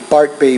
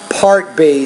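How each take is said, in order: First: The P is released with little air. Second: The P is released with much air. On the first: The speaker calls it wrong. "Notice you said part part B" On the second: The speaker calls it right. "but it's part part B. So you have to get used to pronouncing your P in English with a lot more air"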